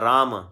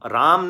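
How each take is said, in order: First: It ends with a faint extra vowel sound. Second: It ends abruptly with no extra vowel. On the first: The speaker calls it right. "थोड़ा सा फालतू sound" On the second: The speaker calls it wrong. "राम नहीं होता"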